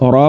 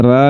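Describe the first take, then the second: First: A thick, full-mouthed "را"; heavy ra. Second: "را" said thin and light, with a flat bright a; a light, thin "را" given as the mistake; thin ra, the wrong way. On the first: Teacher showing students the heavy "را". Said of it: "را کو پر کر کے پڑھنا ہے". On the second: Teacher showing students the wrong thin "را". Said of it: "را نہیں پڑھنا". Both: Shown as a demonstration.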